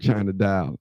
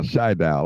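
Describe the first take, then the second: First: The first name is said with two syllables. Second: The first name is said with one syllable. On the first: The speaker calls it wrong. "I always say China Dial" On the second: The speaker calls it right. "that's how it is"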